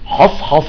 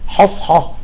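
First: The h sound is heavy and thick. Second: The h sound is light and thin. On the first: The speaker calls it wrong. "بعضهم شو بيقرأ بيقول لك" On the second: The speaker calls it right. "لا نقول حص حصة"

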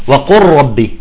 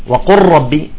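The two takes are said the same way.

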